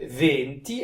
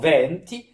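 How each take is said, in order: First: The first vowel is a closed e. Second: The first vowel is an open e. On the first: It means twenty. The speaker calls it right. "avec un e fermé" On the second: It means winds. The speaker calls it wrong. "Si je l'ouvre en venti, alors je dis les vents"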